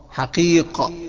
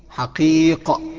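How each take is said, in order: The two takes are said the same way.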